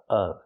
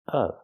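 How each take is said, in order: First: The vowel is a short 'uh' sound. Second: The same.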